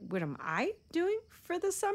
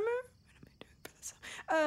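First: Said in the usual way. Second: Whispered high to herself in a panic; panicked whisper. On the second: Real, not acted. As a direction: whisper the question back to yourself, pitched high. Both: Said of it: "repeats his question, then whispers it".

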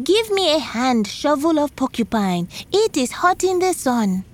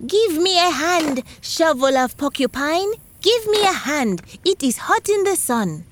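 First: High copied call to the shovel; shouting. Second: High, called-out cry to the shovel; shouting. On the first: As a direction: shout it up like Porcupine did. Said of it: "shouted the same thing he heard Porcupine say". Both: A narrator's reading.

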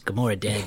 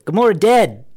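First: Low, soft interjection; muttered objection. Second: Higher, louder, punched-out objection; insistent interjection. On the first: Objecting as friends list possible films, muttered low. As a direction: slip it in quietly under the others. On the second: Cutting in on the friends' film idea, loud and insistent. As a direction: cut in loudly to be heard. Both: Real, not acted.

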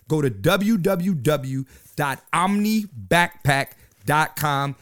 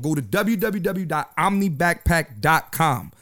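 First: Slow web address, each part set apart; slow, deliberate repeat. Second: Said in the usual way. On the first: Real, not acted. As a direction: spell out w w w dot omni backpack dot com slowly.

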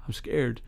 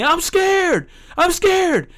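First: Very soft, imitating a timid kid; hushed kid's admission, acted out; retold whisper. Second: Very high-pitched imitation of a yelling kid; mock kid's yell, pitched way up; retold yelling. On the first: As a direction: barely let the confession out. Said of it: "he whispers". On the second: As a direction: cry it out like a kid made to yell. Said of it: "the kid's, like, yelling".

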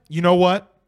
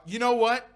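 First: Louder emphatic. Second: Said in the usual way. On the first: Real, not acted. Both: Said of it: "repeats phrase louder".

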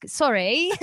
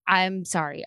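First: Lightly put-on Australian lilt, rising at the end; playful hint of Australian accent; mock Australian accent. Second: Said in the usual way. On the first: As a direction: slip into copying an Australian, a little higher. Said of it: "with a guy from Australia". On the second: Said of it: "I keep trying to sound like you sound".

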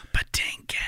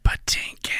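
First: Haunting voice. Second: Whispered, haunting name call; ghostly whisper. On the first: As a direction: ghostly whisper of the name. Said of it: "there's this ghostly voice that goes". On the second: How I Met Your Mother reference. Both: Retold or imitated.

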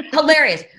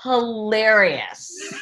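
First: "Hilarious" punched higher and louder, quick fall; emphatic hilarious. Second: Drawn-out hilarious. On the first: Host repeating praise of his videos, "Hilarious" louder and higher. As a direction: hit "Hilarious" hard to insist. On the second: Host praising his Instagram videos, "hilarious" drawn out slowly. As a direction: stretch "hilarious" very slowly with a rising lilt. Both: Real, not acted. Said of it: "are hilarious".

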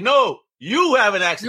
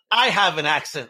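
First: "you" punched higher; stress on "you". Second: Said in the usual way. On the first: Retold or imitated. New Yorker retorting to Massachusetts locals, stress thrown high on "you". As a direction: lean hard on "you", pitched up.

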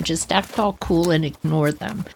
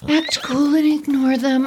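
First: Said in the usual way. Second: Higher, firmer self-pep; pep talk. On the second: Shown as a demonstration. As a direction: psych yourself up.

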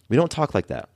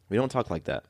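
First: Said in the usual way. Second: Much softer repeat, drifting off; soft echo. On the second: Shown as a demonstration. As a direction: let the repeat fall away softly. Echoed line, much softer.

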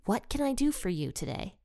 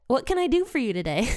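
First: Softly voiced, unhurried offer of help; retold Jesus' question. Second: Quick, higher quote, tipping into laughter; amused repeat. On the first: Jesus asks blind Bartimaeus what he needs, softly retold. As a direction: quote it gently, quieter than the narration. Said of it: "and Jesus says". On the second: Retold or imitated. Teacher relishes Jesus' funny question, amused and quick. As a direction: repeat it delightedly, about to laugh.

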